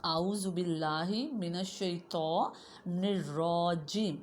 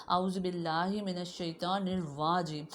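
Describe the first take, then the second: First: Slow الرجیم with a clean r, no w sound; correct recitation. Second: الرواجیم said with a w sound; mild mock student error; imitating the student mistake. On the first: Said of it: "ٹھیک توز کیا ہے؟". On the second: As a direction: read الرواجیم wrong, the way students do. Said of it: "اکثر students آپ میں سے ایسے پڑھتے ہیں". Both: Shown as a demonstration.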